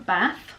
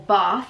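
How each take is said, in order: First: It is said in a plain northern English accent. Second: It is said in a posh southern English accent.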